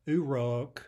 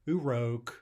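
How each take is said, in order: The two takes are said the same way.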